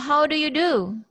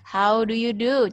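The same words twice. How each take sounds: First: The voice moves up and down, as a question. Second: The voice stays level, with flat intonation. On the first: It is asked as a greeting question. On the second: It is given as the reply to the greeting.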